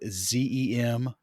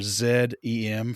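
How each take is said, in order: First: The letter Z is named zee. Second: The letter Z is named zed.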